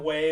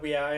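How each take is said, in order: First: The name is said as one syllable. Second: The name is said as two syllables. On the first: The speaker calls it wrong. "I always call them Way" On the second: The speaker calls it right. "instead of We I"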